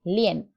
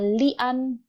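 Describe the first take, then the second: First: The ending sounds like 'yen' with an e vowel. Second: The ending is read with an open 'an' vowel. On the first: The speaker calls it right. "Digabung, lien" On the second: The speaker calls it wrong. "bukan dibaca lian"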